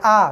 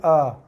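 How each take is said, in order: First: The vowel is made near the front, at the lips. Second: The vowel is made deep inside the throat. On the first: The speaker calls it wrong. "Bukan a" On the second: The speaker calls it right. "tapi a, a, bunyi kat dalam. Bibir tak gerak pun"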